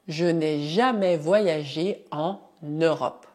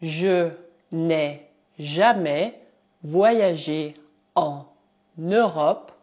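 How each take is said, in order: First: Said in the usual way. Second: "je n'ai jamais voyagé en Europe" said word by word; teacher dictating slowly; slow dictation. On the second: Shown as a demonstration.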